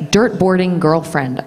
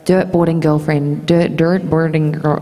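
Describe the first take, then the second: First: Put-on slow American "Dirt boarding girlfriend", R's pronounced; measured American R's on each word; careful American accent. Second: "Dirt boarding girlfriend" attempted in American, restarting on "dirt"; retold tongue-tied American attempt; struggling American accent. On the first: Shown as a demonstration. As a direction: show off the tricky American phrase slowly. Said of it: "like, the hardest phrase". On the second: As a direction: stumble over the American R's in "dirt boarding girl". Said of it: "It just was really that one".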